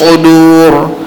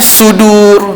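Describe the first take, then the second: First: The s is heavy, with rounded lips. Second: The s is thin, with open lips.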